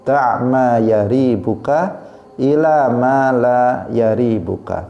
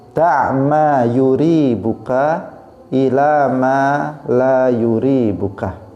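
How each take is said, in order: First: The first syllable of the verb has an 'a' vowel. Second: The first syllable of the verb has a 'u' vowel.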